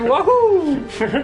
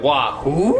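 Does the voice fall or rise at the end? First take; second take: falls; rises. First: It is an exclamation, falling at the end. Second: It is a question, rising at the end.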